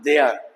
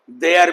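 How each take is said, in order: First: "देयर" slowly as "deh-a", no final R; R dropped. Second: "देयर" with the final R pronounced; R sounded. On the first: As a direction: end "देयर" on a schwa. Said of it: "ए, एया". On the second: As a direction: finish "देयर" on a clear R. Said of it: "देयर भी बोलते हैं". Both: Shown as a demonstration.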